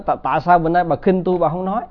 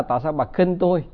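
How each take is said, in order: First: Quick, raised mock scolding; husband snapping at his silent wife in a mild mock scold; retold angry husband. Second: Said in the usual way. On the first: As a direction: rattle it off like an irritated husband demanding an answer.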